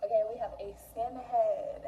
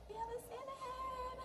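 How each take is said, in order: First: Said in the usual way. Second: Much higher, tiny squeaky voice; high squeaky repeat. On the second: Real, not acted. Vlogger repeats her cookie shape name in a squeaky voice. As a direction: squeak the line up high like a cartoon.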